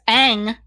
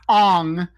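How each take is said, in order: First: The vowel sounds like the one in 'cat'. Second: The vowel sounds like the one in 'song'. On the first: The speaker calls it right. "the motherfucking character's name is Aang" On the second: The speaker calls it wrong. "not Ong"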